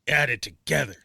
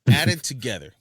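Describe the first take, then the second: First: It is read in a harsh, mean voice. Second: It is read in a plain, neutral voice.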